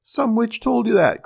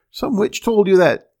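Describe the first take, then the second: First: The same rage pitched much higher, a shrill scream; furious shriek. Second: A loud, enraged shout of disbelief; furious outcry. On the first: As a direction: shriek it again even higher. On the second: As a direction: yell it out in a fit of rage. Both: A narrator's reading. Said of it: "cried the little man ... in a rage".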